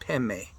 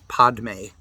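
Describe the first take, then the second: First: The d sound in the middle is dropped. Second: The d sound in the middle is pronounced. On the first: This is how Tibetans say it. "They pronounce it Peme" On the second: This follows the written Sanskrit form. "like you see with the way it's written out in Sanskrit"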